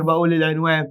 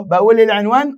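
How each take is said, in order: First: بقول العنوان. stated, falling and much softer; confirming answer. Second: بقول العنوان؟ asked with a rising question tune. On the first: (إجابة مؤكدة بصوت هادئ ونبرة هابطة) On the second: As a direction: ask "بقول العنوان؟" as a real question, voice lifting at the end. (سؤال بنبرة صاعدة) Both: Shown as a demonstration. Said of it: "آه يا سينيور، بقول العنوان".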